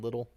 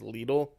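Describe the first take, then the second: First: The name is said like English 'little'. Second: The name is said the German way. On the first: "gone back to saying little" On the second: "the proper German way"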